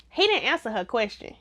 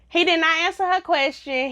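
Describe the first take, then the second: First: Said in the usual way. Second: "did not" spelled out with emphasis, higher pitch; emphatic restatement. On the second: Real, not acted. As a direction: hit "did not" higher, as two full words. Repeats it uncontracted for emphasis.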